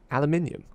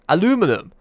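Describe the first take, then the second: First: It is said in a British accent. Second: It is said in an American accent.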